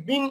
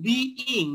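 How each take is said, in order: First: বিং squeezed into one syllable, bing; common mispronunciation. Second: বিইং in two syllables, bee-ing; correct pronunciation. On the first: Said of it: "অনেকে বিং উচ্চারণ করি". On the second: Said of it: "এইটার উচ্চারণটা কিন্তু বিইং". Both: Shown as a demonstration.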